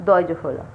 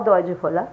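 The two takes are said the same way.

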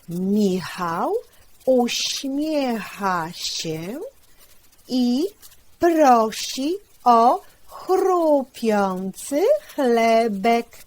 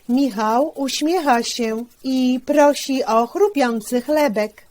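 First: The sentence is read at a slower pace. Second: The sentence is read at a faster pace.

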